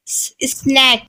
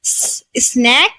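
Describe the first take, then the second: First: Said in the usual way. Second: स्नैक said slowly, the स drawn out as a hiss; teacher sounding out स्नैक slowly; slow stretched demo. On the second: Shown as a demonstration. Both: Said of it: "स की आवाज निकलती है ना".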